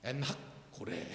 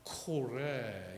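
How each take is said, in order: First: 엔하코레 with 엔하 run together, then a pause before 코레; funny pronunciation. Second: 엔하코레 slow and low, split as en, ha, kore; precise pronunciation. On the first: Preacher shows a comic wrong reading, 엔하코레 oddly run together. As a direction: say 엔하코레 oddly joined, lower and softer. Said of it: "이건 좀 발음이 웃기는 거고". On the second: Preacher shows the Hebrew pronunciation, 엔하코레 slow and separated. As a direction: sound out 엔하코레 in separate, careful pieces. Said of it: "정확히 발음하면". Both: Shown as a demonstration.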